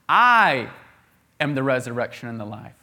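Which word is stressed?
I. The word "I" carries the main stress. The speaker himself is the one. "It's Jesus. He's the one"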